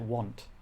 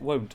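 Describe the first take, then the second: First: The vowel sounds like the 'ah' in 'father'. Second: The vowel sounds like the 'oh' in 'go'. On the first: The speaker has always said it this way. "I've always pronounced it want" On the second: Someone else says it this way. "Why do they pronounce it won't?"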